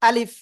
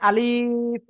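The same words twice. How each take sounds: First: The vowel is kept short and crisp. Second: The vowel is stretched out long. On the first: The speaker calls it right. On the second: The speaker calls it wrong.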